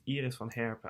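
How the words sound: The name is said with a Dutch accent. This is the native pronunciation. "I can say it in a Dutch way"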